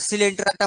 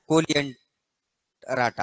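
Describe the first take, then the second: First: The word begins with an s sound. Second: The word begins with a k sound. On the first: This is how people usually say it. "म्हणताना सिलेंटराटा म्हणायला लागलोय" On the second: This follows the spelling. "जर आपण pronunciation करण्याचा प्रयत्न केला तर कोलिएंटराटा"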